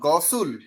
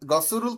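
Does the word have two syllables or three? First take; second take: two; three. First: It is said with two syllables, ending 'sul'. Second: It is said with three syllables, ending 'suruul'. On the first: The speaker calls it right. "উপরে শিয়ত গেলে শিয়তের সাথে উল।" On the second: The speaker calls it wrong. "গসুরুল কেন হবে?"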